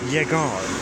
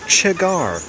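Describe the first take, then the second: First: The double L is said with a y sound. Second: The double L is said with a ch sound.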